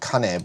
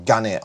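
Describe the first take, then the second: First: The word begins with a voiceless K sound. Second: The word begins with a voiced G sound. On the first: The word stands on its own. The speaker calls it right. "the actual word on its own is fuchi and kane" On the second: The word is joined to another word. The speaker calls it wrong. "You can't just say buchi or gane on their own"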